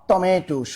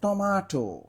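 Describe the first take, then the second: First: The middle vowel sounds like e. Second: The middle vowel sounds like a. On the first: The speaker calls it wrong. "এখানে আছে টমেটো not টমেটো" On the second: The speaker calls it right. "শুদ্ধ বানান হবে টমাটো"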